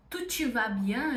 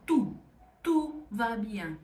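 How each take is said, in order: First: Brazilian reading; Portuguese-style vowels; wrong sound. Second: Slow French "tu va bien"; careful French rounded vowel. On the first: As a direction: read "tu te va bien" like Portuguese. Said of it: "em vez de eu falar". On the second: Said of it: "eu vou falar". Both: Shown as a demonstration.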